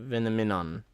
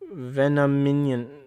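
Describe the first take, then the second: First: The name ends with the sound 'minon'. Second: The name ends with the sound 'minion'. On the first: The speaker calls it right. "That's a Venominon" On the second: The speaker calls it wrong. "No, that's not minion"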